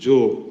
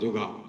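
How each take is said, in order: First: The word ends on the 'g' consonant. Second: The word ends with a final 'a' vowel. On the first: The speaker calls it right. "আসলে শব্দটি কিন্তু যোগ" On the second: The speaker calls it wrong. "এটা অত্যন্ত বিকৃত লাগে শুনতে"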